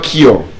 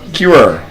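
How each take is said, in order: First: The vowel is a single vowel without a glide. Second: The vowel glides from 'oo' into 'uh'. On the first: The speaker calls it wrong. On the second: The speaker calls it right.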